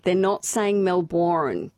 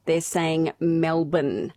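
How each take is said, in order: First: "Melbourne" said the local way as MEL-bn, the second syllable swallowed, slowly; Australian Melbourne. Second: "Melbourne" said the American way as MEL-born, a full "born" at the end, slowly. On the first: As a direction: say "Melbourne" like a local, the end cut short. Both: Shown as a demonstration. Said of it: "schooled in how to say Melbourne".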